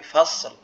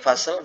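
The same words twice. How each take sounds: First: The s sound flows on clearly. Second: The s sound is cut short. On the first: The speaker calls it right. "tapi fasel" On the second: The speaker calls it wrong. "bukan fasel"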